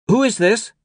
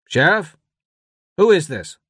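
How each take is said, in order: First: Put-on very high boy's question. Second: Raised voice of a puzzled deputy; questioning radio voice. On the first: Boy with the device asks the stranger, nervous. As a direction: ask it high and uncertain, like a boy. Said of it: "he asked". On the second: Deputy on the radio questions an unknown caller, puzzled. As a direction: demand to know who is on the line. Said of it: "The radio crackled with a voice". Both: A narrator's reading.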